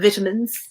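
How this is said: The word is said with a British pronunciation.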